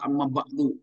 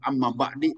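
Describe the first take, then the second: First: The second word ends in a u vowel. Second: The second word ends in an i vowel. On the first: The speaker calls it right. "harus amma ba'du" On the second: The speaker calls it wrong. "tidak boleh"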